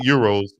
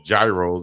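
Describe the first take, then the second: First: The word begins with a Y sound. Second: The word begins with a hard G sound. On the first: This is how the speaker's own group says it. "as we call them" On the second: Other people say it the way it is spelled. "as some people might say"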